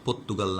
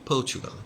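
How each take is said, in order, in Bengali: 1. মাঝের ব্যঞ্জনধ্বনিটি 't'-এর মতো শোনায়। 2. মাঝের ব্যঞ্জনধ্বনিটি 'ch'-এর মতো শোনায়। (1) "পর্তুগাল না" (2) "পর্চুগাল বলো"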